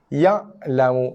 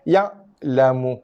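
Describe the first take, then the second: The two takes are said the same way.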